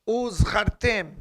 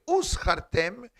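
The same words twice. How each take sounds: First: "Uzchartem" slowly, with a buzzing Z; correct voiced Z. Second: "uzchartem" with an unvoiced S in place of Z; mistaken S sound. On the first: Teacher quoting remember in Hebrew, "Uzchartem" with voiced Z. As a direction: hold a clear voiced Z in "Uzchartem". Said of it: "'Cause if you say uzchartem". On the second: Teacher showing the misreading, "uzchartem" said with S for Z. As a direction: misread it as "uschartem". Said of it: "if you say uzchartem, it has two meanings". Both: Shown as a demonstration.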